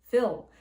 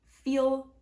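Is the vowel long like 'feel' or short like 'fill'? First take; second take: short; long. First: The vowel is short, as in 'fill'. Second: The vowel is long, as in 'feel'.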